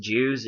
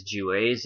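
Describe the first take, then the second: First: "Jews" as one syllable, like the ordinary word; wrong pronunciation. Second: "Jewes" in two syllables, unlike "Jews"; corrected pronunciation. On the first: Presenter showing viewers how not to say the term, one-syllable "Jews". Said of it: "It's not pronounced Jews". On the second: Presenter correcting the term for viewers, two-syllable "Jewes". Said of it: "It's not pronounced Jews, it is Jewes". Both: Shown as a demonstration.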